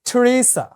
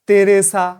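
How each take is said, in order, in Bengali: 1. নামটি ইংরেজি উচ্চারণে বলা হয়েছে। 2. নামটি বাংলা উচ্চারণে বলা হয়েছে। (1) "ওরা কি বলে থ্রেসা" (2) "আমরা যেরকম বাংলা বলি তেরেসা"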